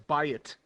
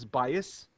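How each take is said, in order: First: The word ends with a t sound. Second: The word ends with an s sound. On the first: "and others as bayit"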